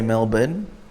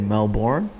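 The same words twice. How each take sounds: First: It is said in a non-American accent. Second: It is said in an American accent. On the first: "they can't say Melbourne" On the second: "how Americans say Melbourne"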